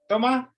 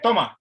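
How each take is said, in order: First: It is said with a questioning tune. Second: It is said as a flat command. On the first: It asks whether the person takes it. "that that's a question form" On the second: It tells the person to take it. "that means take it"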